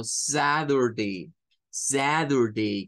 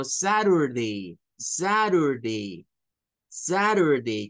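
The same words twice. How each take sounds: First: Saturday slow, ZA-dur-day, T as D. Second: Saturday slow, SA-rur-day, T as flap R. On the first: Teacher imitating an American saying Saturday. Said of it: "con ese zad". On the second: Teacher imitating other Americans saying Saturday. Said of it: "como rur". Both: Shown as a demonstration.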